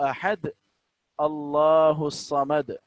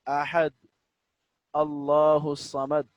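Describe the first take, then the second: Both takes have the same delivery.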